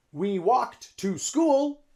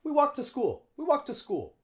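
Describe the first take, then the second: First: "to" in "We walked to school." said long and full; slow full to. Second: "to" in "We walked to school." reduced to a quick t. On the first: Teacher demonstrating the too-long version. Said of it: "it's too long". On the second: Teacher modeling the natural reduced "to". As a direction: clip "to" to t, linked to walked. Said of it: "We say t". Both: Shown as a demonstration.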